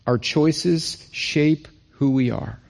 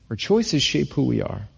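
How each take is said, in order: First: Slow, each word of "Our choices shape who we are" weighted; slow emphasis. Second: Said in the usual way. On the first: Shown as a demonstration. Preacher to church, slow emphatic repetition. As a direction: drive the point home slowly.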